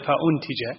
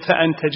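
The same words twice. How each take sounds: First: The hamza carries a 'u' vowel: fa-untija. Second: The hamza carries an 'a' vowel: fa-antaja. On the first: The speaker calls it right. "مضمومة، هذا الأفصح أو الصواب" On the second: The speaker calls it wrong. "الهمزة مفتوحة"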